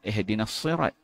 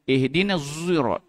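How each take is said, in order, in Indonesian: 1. Kata itu dimulai dengan bunyi s emfatik. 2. Kata itu dimulai dengan bunyi z berbibir bulat. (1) "Dia tak baca dengan Sad" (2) "Ishmam zai, z, tapi muncung"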